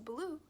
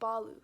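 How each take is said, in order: First: The name is said the American way. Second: The name is said the original way. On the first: The speaker calls it wrong. "in the movie and the way that they pronounce it in America" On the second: The speaker calls it right. "it's actually pronounced Balu"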